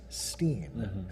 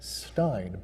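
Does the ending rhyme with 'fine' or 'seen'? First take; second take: seen; fine. First: The vowel sounds like the one in 'seen'. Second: The vowel sounds like the one in 'fine'. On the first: The name is Yiddish. "if it's a Yiddish name, then it's pronounced Steen" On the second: The name is plain German. "If you're just German, the E I N is pronounced Stein"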